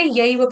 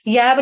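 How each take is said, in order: First: यैव with an a-i glide; यैव with a two-part vowel; correct diphthong demo. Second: यैव with a simple open e vowel; mispronounced यैव, single vowel; wrong vowel demo. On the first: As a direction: say यैव as ya-iva. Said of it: "यैव पढ़ेंगे". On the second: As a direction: say यैव as yev, no glide. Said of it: "यैव नहीं पढ़ेंगे". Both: Shown as a demonstration.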